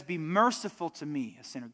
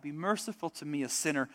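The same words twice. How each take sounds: First: Said in the usual way. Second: Hushed, humble plea for mercy; a sinner quietly begging for mercy; softer pleading cry. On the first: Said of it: "But he says". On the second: Retold or imitated. Tax collector begging God for mercy, softly pleading. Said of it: "God cries out".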